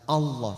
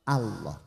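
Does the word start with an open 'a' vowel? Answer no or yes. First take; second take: no; yes. First: The first vowel is not an open 'a'. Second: The first vowel is an open 'a'. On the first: The speaker calls it wrong. "bukan Allah" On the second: The speaker calls it right. "hamzahnya maftuha"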